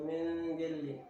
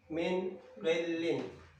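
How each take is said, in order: First: The n blends into the following consonant. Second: The n is pronounced clearly and separately. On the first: The speaker calls it wrong. "Jadi bukan min gilin" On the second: The speaker calls it right. "Nun matinya jelas"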